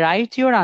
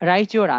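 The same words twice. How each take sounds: First: The t and y are said separately. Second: The t and y merge into a ch sound.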